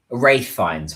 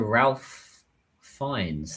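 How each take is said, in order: First: "Rafe" with a long A and no L; corrected name pronunciation. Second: "Ralph" with an audible L, not like "Rafe"; mispronounced Ralph. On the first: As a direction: say "Rafe" to rhyme with safe. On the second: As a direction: say "Ralph" as spelt, with the L sounded. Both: Real, not acted. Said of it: "Why did I say Ralph".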